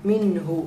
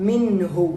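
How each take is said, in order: No difference in how they are said.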